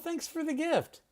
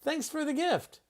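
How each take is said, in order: First: 'For' is reduced, sounding like 'fur'. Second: The same.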